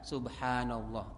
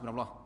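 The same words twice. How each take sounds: First: It is said at an unhurried pace. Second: It is said quickly and rushed.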